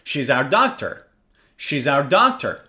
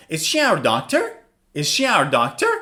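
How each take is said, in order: First: "She's our doctor" going down on "doctor"; falling intonation. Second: "Is she our doctor?" going up on "doctor"; rising intonation. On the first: Teacher contrasting statement with question, "doctor" falling. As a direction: settle "doctor" low as a statement. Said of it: "Falling intonation". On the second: Teacher contrasting question with statement, "doctor" rising. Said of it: "Rising intonation". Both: Shown as a demonstration.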